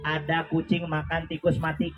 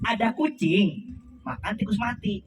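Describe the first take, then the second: First: It is said flat, without phrasing. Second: It is said with clear intonation and phrasing.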